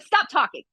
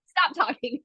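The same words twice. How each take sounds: First: Sharp, higher order from the judge: Stop talking; stern judge. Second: Said in the usual way. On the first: Retold or imitated. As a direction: cut her off firmly, pitched up. Quoting the furious judge.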